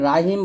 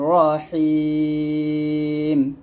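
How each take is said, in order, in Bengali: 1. 'r' উচ্চারণটি হালকা ও পাতলা। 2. 'r' উচ্চারণটি ভারী ও মোটা।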